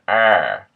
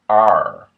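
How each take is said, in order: First: A Maine R with tongue pulled toward soft palate. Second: A Middle American R with tongue near front teeth. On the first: "with a native Maine accent" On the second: "typically with Middle American"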